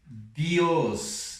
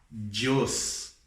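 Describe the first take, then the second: First: The d is said the Spanish way. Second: The d is said the Brazilian Portuguese way. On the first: The speaker calls it right. "é Dios" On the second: The speaker calls it wrong. "Não é Dios"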